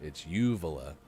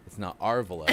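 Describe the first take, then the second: First: Uvula opening on a stressed "you", low and matter-of-fact; stress on first syllable. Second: Our stressed as its own word, villa trailing. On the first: Landing the pronoun joke on uvula, first syllable stressed. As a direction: lean on the "u" of uvula, like the word you. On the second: Correcting the co-host as a joke, stress on "our". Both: Shown as a demonstration.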